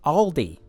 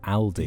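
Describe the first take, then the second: First: It is said in an American accent. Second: It is said in a non-American accent.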